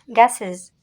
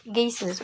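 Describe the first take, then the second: First: "Gases" with an open "a", as in "gas"; "Gases" starting like French "gaz", ending in -ez; first pronunciation variant. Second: "gases" with a long "ay" in the first syllable; alternative pronunciation. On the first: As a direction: say "Gases" as GASS-ez. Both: Shown as a demonstration. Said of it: "Or gases".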